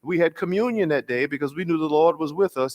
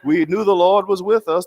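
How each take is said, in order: First: Higher imitation of an elder preacher; first take, said steadily; John Lewis telling the story, mildly high. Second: Much higher and louder, emphatic; John Lewis impression, louder and higher. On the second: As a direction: repeat the line with full preacher force. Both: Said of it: "my attempt to do his voice".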